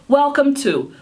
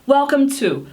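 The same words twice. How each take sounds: No difference in how they are said.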